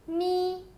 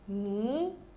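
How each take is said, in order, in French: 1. La hauteur reste haute et stable. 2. La hauteur monte du milieu vers le haut.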